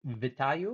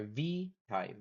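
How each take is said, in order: First: "Vitayu" with a short, unstressed first syllable; trying a pronunciation. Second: "Vitayu" with a long, drawn-out "vee"; alternative pronunciation. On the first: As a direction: say "Vitayu" with a quick "vih" at the start. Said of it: "Hopefully I'm pronouncing that correctly". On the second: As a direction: stretch the first syllable of "Vitayu" into "veee". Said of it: "is it". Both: Shown as a demonstration.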